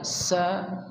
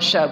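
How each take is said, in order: First: It starts with a thin 's' sound. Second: It starts with a 'sh' sound. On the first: The speaker calls it right. "tipisnya bu sa" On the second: The speaker calls it wrong. "bukan sya"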